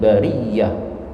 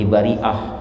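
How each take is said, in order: First: A doubled y sound comes before the final syllable. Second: A glottal stop comes before the final syllable. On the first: "menjadi ya bertasydid" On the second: "pakai hamzah"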